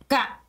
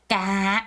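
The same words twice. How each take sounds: First: The pitch drops sharply all at once. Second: The pitch drops with a heavy pressing push. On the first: "북부는 까 하고 한 번에 내리 꽂으면서 떨어져요" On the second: "남부는 까, 까 이렇게 해요. 이렇게 눌러주는"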